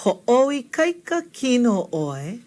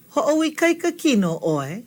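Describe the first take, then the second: First: "Ho'oikaika kino oi" slowly, sound group by sound group; taking time. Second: Said in the usual way. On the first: Shown as a demonstration. Teacher helps learners through a long word, slow careful model. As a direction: stretch out "Ho'oikaika kino oi" so learners can follow. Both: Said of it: "Take your time".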